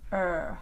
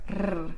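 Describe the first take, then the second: First: The R sound is smooth and not rolled. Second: The R sound is rolled with the tongue. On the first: The speaker calls it right. "The tongue goes up, but it doesn't touch, and it doesn't curl" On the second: The speaker calls it wrong. "people will roll the R sound like r"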